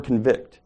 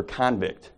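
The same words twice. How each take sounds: First: "convict" said con-VICT, weak first syllable, stress on the second; "convict" as the verb: kun-VICT, lean on the end; "convict" with the stress on VICT, like to convict someone. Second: "convict" said CON-vict, full "kon" stressed first, light second syllable; "convict" as the noun: KON-vict, a prisoner; "convict" with the stress on CON, like a convict in jail. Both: Shown as a demonstration. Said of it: "think of the word convict or convict".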